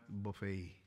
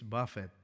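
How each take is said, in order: First: It ends with an 'ay' sound, last syllable stressed. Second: It ends with an 'et' sound, first syllable stressed. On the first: It means an all-you-can-eat meal. The speaker calls it wrong. "It is not buffet" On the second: It means to strike or beat. The speaker calls it right. "No, it's buffet"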